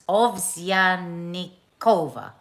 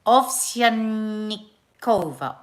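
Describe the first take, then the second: First: Ovsyanikova stretched out slowly, ending on a fall; careful Russian name. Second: Ovsyanikova drawn out slowly, each syllable placed; careful Russian name. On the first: Host repeating the surname to get it right. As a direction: pronounce Ovsyanikova deliberately, slowly. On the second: Host retrying the Russian surname slowly and carefully. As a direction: say Ovsyanikova very slowly, falling at the end. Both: Shown as a demonstration. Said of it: "I think I've done a pretty good job".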